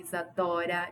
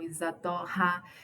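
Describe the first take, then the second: First: The middle r is a soft, single tap. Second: The middle r is a strong, harsh r. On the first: The speaker calls it right. "o R intercalado entre duas vogais tem o som um brando" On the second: The speaker calls it wrong. "e não"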